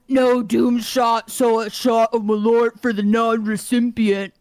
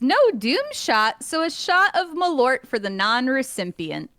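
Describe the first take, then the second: First: It is read in a deeper put-on man voice. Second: It is read in her ordinary speaking voice.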